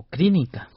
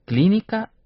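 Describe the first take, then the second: First: Clínica said with an R after the opening C; R for L mispronunciation. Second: Said in the usual way. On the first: Shown as a demonstration. Teacher quizzes learners on pronunciation, R for L. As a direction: say "clínica" as "crínica", R replacing L. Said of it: "¿Cómo se pronuncia?". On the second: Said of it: "Se pronuncia y se escribe clínica".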